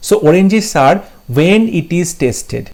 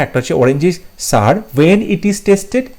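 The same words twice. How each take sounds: First: Slow dictation. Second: Said in the usual way. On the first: Shown as a demonstration. Reading the option slowly.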